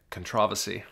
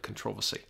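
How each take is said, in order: First: British pronunciation, stress on the second syllable of controversy; British accent. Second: Controversy in a fuller put-on British accent, con-TROV-ersy, quieter. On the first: Retold or imitated. Mimicking how friends in England say controversy. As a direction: say controversy the British way, con-TROV-ersy. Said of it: "as our friends in England say". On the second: Shown as a demonstration. Host demonstrating a proper British accent, playful British accent. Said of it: "You've got to say it with a British accent".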